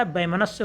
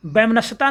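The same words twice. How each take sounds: First: Said in the usual way. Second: वैमनस्यता with an added "ta"; wrong word form. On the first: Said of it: "होता है". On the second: Shown as a demonstration. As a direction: say the mistaken longer form वैमनस्यता. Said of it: "नहीं लिखा जाता". (वैमनस्यता, अंत में ता)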